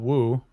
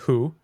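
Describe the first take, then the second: First: The word starts with a clear w sound. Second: The word starts without any w sound. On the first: The speaker calls it wrong. "not woo" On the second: The speaker calls it right. "Just who"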